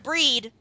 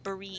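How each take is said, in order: First: The name is said as one syllable. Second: The name is said as two syllables. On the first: The speaker calls it wrong. "Not like breed" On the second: The speaker calls it right. "but Bereed"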